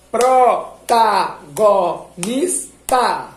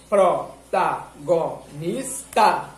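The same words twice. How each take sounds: First: "Protagonista" split very slowly into PRO-TA-GO-NIS-TA, loud; "Protagonista" dragged syllable by syllable. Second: "Protagonista" repeated syllable by syllable; syllables again. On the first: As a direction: clap "Protagonista" out in five slow loud beats. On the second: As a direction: count "Protagonista" out again in five slow beats. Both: Shown as a demonstration. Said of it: "enquanto você tá falando as sílabas".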